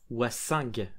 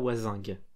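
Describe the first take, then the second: First: The middle consonant is a hissing s sound. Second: The middle consonant is a buzzing z sound. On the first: The speaker calls it right. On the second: The speaker calls it wrong.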